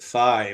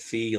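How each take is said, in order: First: The name rhymes with 'eye'. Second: The name rhymes with 'see'. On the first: This is how Americans say it. "Americans pronounce it phi" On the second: This is how Greek people say it. "pronouncing it fee like the Greek people do"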